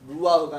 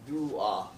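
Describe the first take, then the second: First: The word ends on a plain open vowel. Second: The word ends with a breathy throat sound. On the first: The speaker calls it wrong. "누아가 아니라" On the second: The speaker calls it right. "누아흐예요"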